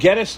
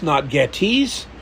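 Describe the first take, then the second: First: The name does not sound like 'Getty' plus s. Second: The name sounds like 'Getty' plus s. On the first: The speaker calls it right. "It is, in fact, Gettys" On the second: The speaker calls it wrong. "Getty oil, I guess, is why people call it"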